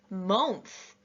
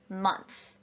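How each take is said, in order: First: The vowel is said as a rounded oh sound. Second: The vowel is said as a short uh sound. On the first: The speaker calls it wrong. "they would have tried oh" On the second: The speaker calls it right. "they wrote month in the uh column"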